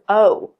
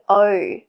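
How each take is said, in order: First: The vowel is said with more rounded lips. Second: The vowel is said with flatter lips, further back. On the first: "Americans, O. ... See how it's more rounded?" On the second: "We say O"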